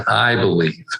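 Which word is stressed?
I. The stress is on "I".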